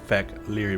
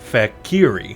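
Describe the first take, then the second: First: The word is said with an L sound. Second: The word is said without an L sound. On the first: The speaker calls it wrong. "I keep wanting to say the L H R I" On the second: The speaker calls it right. "imagine that the L is silent"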